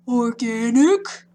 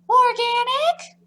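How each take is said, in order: First: It is said in a low voice. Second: It is said in a high voice.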